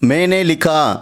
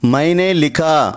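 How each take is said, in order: First: The first syllable has a plain 'e' vowel. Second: The first syllable has the full 'ai' diphthong. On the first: This is how people say it in everyday speech. "பேசும்போது மேனே லிகா அப்படித்தான் use பண்ணுறோம்" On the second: This is the full written form. "மைனே லிகா அப்படின்னு சொல்லலாம்"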